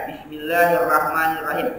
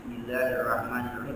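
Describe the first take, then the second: First: Ucapkan Bismillahirrahmanirrahim perlahan dan utuh; bacaan lambat. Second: Bismillahirrahmanirrahim diulang lebih rendah dan pelan; lebih lirih. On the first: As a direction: contoh bacaan yang benar, pelan. (Bismillahirrahmanirrahim dibaca pelan) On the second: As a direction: ulangi lirih, seperti bergumam. (Bismillahirrahmanirrahim diucapkan lirih dan rendah) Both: Shown as a demonstration. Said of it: "Nah, itu yang benar".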